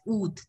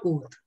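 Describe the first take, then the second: First: Oath said as "oot"; oath, long rounded "oo"; correct French vowel. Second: Oath said as "oht"; wrong vowel. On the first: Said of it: "You have to pronounce it as oath". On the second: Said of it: "not oath". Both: Shown as a demonstration.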